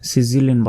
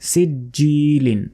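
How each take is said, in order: First: The middle consonant is not a clear 'j' sound. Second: The middle consonant is a clear 'j' sound. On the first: The speaker calls it wrong. "সিজিলিন বলা যাবে না" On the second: The speaker calls it right. "বলতে হবে সিজিলিন"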